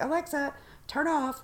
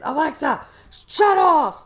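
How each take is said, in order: First: Firm, higher command to the speaker; firm request to Alexa. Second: Loud, much higher yell of a command; husband yelling at Alexa to shut off. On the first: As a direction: tell Alexa to turn off. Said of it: "you have to say it right". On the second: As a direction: shout the command at the speaker. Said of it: "he yells at her". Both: Retold or imitated.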